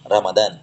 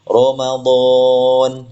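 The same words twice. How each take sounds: First: The r and its vowel sound light and thin. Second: The r and its vowel sound heavy and thick. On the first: The speaker calls it wrong. "jangan Ramadan ya... ro-nya dibaca ra" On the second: The speaker calls it right. "Tapi Ramadan ya"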